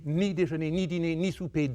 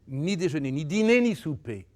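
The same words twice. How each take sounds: First: The stress falls on each 'ni'. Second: The stress falls on each of the nouns. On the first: The refusal itself is the point. The speaker calls it right. "ou bien c'est ni, ni, ni, ce que je préfère" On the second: The meals themselves are the point. The speaker calls it wrong. "c'est faux"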